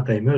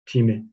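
First: "timer" said the English way, "tie-mer"; "timer" with an English "ai" sound. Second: "timer" read as French, "ti-mé", ending on "é"; "timer" pronounced like French "timé"; French-spelled timer. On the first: Shown as a demonstration. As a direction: say "timer" like the English word, first syllable "tie". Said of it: "il le prononce pas". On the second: Retold or imitated. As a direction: imitate the app saying "timer" as a French word, "ti-mé". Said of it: "il le prononce".

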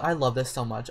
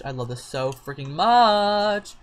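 First: Said in the usual way. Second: "much" held long and louder; gushing emphasis. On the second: Real, not acted. Player adores the cat, gushing with a long "much".

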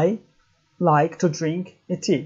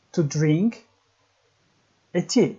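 First: Whole sentence, unhurried. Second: To drink, pause, a tea, each piece set apart; word by word with pauses. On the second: Teacher spelling out a sentence for learners, word by word. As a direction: split To drink and a tea with a long gap. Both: Shown as a demonstration. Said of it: "Mesela diyelim ki".

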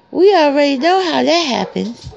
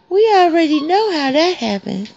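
The two takes are said the same way.

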